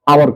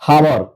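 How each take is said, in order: First: The word begins directly with a vowel sound. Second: The word begins with an audible h sound. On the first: The speaker calls it right. "आवर कहते हैं" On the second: The speaker calls it wrong. "ऐसा बात नहीं करते हैं"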